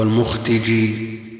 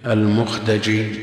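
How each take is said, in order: First: The d is followed by an i vowel. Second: The d is followed by an a vowel. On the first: "وكسرها" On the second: "بفتح الدال"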